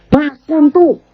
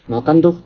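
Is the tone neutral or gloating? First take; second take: gloating; neutral. First: It sounds satisfied and gloating, like serves-you-right. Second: It sounds like a plain instruction to eat.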